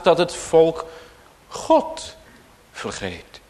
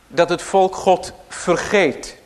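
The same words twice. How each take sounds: First: The word God carries the main stress. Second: The word vergeet carries the main stress. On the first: The focus is on who is being forgotten. "Dus met nadruk op God" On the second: The focus is on the act of forgetting. "Dus met nadruk op het vergeten"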